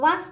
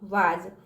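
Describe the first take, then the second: First: The word ends with an s sound. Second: The word ends with a z sound. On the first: The speaker calls it wrong. "वास नहीं पढ़ते हैं तो गलत हो जाएगा हमारा" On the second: The speaker calls it right. "ज का उच्चार निकलता है"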